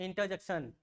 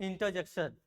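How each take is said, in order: The two takes are said the same way.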